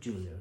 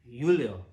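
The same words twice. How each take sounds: First: The name starts with a hard J sound. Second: The name starts with a soft J sound. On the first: The speaker calls it wrong. "It's not Julio" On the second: The speaker calls it right. "It's a soft J"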